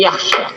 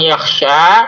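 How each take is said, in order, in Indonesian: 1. Huruf vokal akhirnya dibaca pendek. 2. Huruf vokal akhirnya dibaca panjang.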